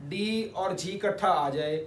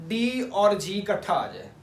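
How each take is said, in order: No difference in how they are said.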